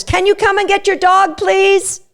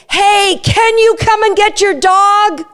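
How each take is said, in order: First: High cheery "Can you come and get your dog, please?"; bright lifted ask; excitable cue. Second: High, slow, cheery "Hey, can you come and get your dog?"; excitable cue. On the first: Owner finishing the cue sentence, excitable. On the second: Owner sees a dog coming, cheery excitable cue. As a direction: keep it light and high so the dog stays happy. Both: Shown as a demonstration. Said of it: "say it in an excitable tone".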